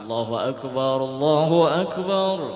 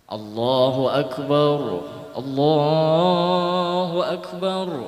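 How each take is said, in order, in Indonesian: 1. Kedua frasa diucapkan menyambung tanpa jeda. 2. Ada jeda di antara kedua frasa. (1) "seandainya digabung kada apa-apa" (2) "dihalat disaktah"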